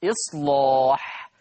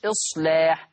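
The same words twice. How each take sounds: First: إصلاح with a thick, dark L, drawn out slowly; heavy lam. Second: إصلاح with a thin, light L; light lam. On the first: Teacher shows Warsh's rule to students, heavy lam in إصلاح. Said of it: "لا مغلظة". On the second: Teacher shows students the wrong reading, light lam in إصلاح. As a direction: say إصلاح with the lam not thickened. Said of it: "أسمع مش إصلاح". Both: Shown as a demonstration.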